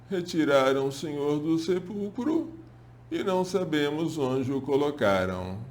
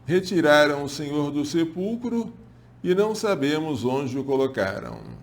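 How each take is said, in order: First: It is said in a whimpering, tearful voice. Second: It is read in a plain, steady voice.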